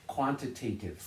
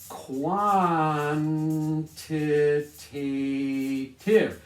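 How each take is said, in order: First: Said in the usual way. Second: Quantitative stretched very slowly and louder, every syllable; slow, drawn-out word. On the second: Shown as a demonstration. Teacher drilling the new word for students, slow and stretched.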